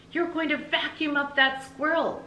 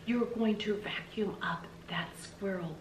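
First: High, called out through the window; shouted warning. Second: Slow whisper to herself; whispered echo. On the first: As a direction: warn her across the yard. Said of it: "she shouted". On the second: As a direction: breathe the words back in wonder. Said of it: "seeing them hanging there over her head". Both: Acted.

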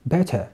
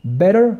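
First: "better" with a crisp t and no final r, softer and falling; UK-style "better"; British better. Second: "Better" with a flapped t and a final r, rising; US-style "Better"; American better. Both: Shown as a demonstration. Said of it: "شفت الفرق كي داير".

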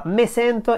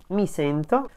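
First: "me sento" said with Romanesco "me"; Romanesco dialect. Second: "mi sento" with standard "mi"; standard Italian. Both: Shown as a demonstration. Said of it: "in standard Italian would be simply".

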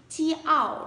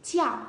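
First: "chi ảo" in two separate parts, high; split syllable. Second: "chiao" said quickly as one short, falling syllable; quick blend. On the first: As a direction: sound out "chi ảo" piece by piece. (đọc tách "chi ảo" thành hai âm, giọng cao) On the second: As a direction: snap the parts together into "chiao". (đọc nhanh, liền "chiao" thành một âm) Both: Shown as a demonstration. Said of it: "đọc nhanh một chút sẽ ra".

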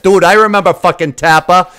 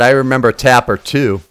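First: Put-on loud, higher-pitched Boston accent. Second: Said in the usual way. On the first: Gamer reminiscing about Tapper to viewers, put-on Boston accent. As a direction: lay on a rowdy Boston accent. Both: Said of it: "I'm saying it with my Boston accent".

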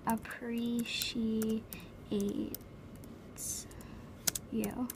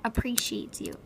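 First: Very slow, syllable by syllable; drawn out. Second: Said in the usual way. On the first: Acted. Advising a girl about guys, slowly drawn out. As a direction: stretch each syllable of "appreciates", pause before "you".

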